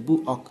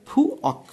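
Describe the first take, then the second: First: বু অক with a voiced b opening; provisional textbook pronunciation. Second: ফু অক with puffed ph, pitched high; corrected pronunciation. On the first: Teacher quotes the book's temporary version, বু অক with voiced b. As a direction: say বু অক with b, not puffed ph. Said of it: "এই কারণে এই উচ্চারণটা করছে". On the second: Teacher gives learners the corrected word, ফু অক with aspirated ph. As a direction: say ফু অক higher, opening on an airy ph. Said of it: "এটা সঠিক উচ্চারণ হয়ে যাবে". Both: Shown as a demonstration.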